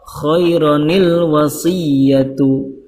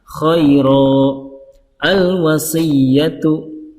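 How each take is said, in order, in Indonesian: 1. Kedua kata tersambung dengan tambahan bunyi n. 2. Ada waqaf di antara kedua kata, tanpa bunyi n. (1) "kalau di wasol" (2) "Kalau diwakafkan"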